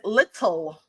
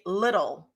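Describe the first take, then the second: First: The middle consonant is a crisp T sound. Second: The middle consonant is a soft D sound. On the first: "almost no one in the United States of America or anywhere says little" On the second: "the D sound is higher in vibration than the T sound"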